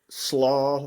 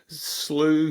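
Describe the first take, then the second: First: The vowel sounds like 'aw' in 'saw'. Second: The vowel sounds like 'oo' in 'blue'. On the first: "slaw. That's my favorite slaw" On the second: "I get called slew"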